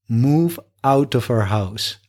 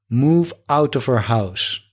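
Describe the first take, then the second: Both takes have the same delivery.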